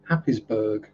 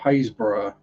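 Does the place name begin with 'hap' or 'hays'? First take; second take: hap; hays. First: The name begins with the sound 'hap'. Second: The name begins with the sound 'hays'. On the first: This is how it is said by reading the spelling. "you'll have people saying" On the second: This is how the name is really pronounced locally. "they aren't spelt like they're pronounced"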